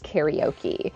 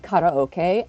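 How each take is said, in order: First: The word is said with English pronunciation. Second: The word is said with Japanese pronunciation. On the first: "No, I'm afraid it's karaoke" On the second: "did you just say karaoke?"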